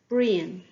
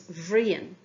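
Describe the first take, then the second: First: The name begins with its plain first sound. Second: The name begins with a changed first sound. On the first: The name is only mentioned. "Brian becomes Bhrian" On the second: The person is being called on directly. "We also changed the beginning sound of the name"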